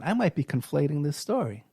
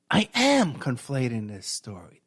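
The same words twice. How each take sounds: First: Said in the usual way. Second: "am" leaned on, slower, admitting it; slow down and land on "am"; stress on am. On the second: Shown as a demonstration. Correcting himself to listeners, stress on "am".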